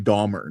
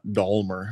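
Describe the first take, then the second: First: The name is said without an L sound. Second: The name is said with an L sound. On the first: The speaker calls it right. "There's no L in it" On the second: The speaker calls it wrong. "not Dahmer"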